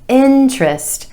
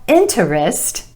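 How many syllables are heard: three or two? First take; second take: two; three. First: The word is said with two syllables. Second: The word is said with three syllables. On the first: The speaker calls it right. "with emphasis on the first syllable" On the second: The speaker calls it wrong. "Not interest"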